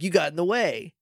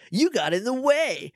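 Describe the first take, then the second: First: It is said in a plain, ordinary voice. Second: It imitates Sam's announcer-like Sonic voice.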